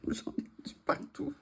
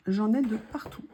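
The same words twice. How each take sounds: First: Breathy laughing whisper. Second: Said in the usual way. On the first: Real, not acted. Repeats the phrase with a laugh.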